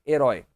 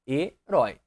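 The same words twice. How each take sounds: First: Said in the usual way. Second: "Herói" split as he, rói; syllable by syllable. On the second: Shown as a demonstration. Teacher separating the word for students, "Herói" syllable by syllable. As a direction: pause inside "Herói": he... rói. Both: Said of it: "separei herói".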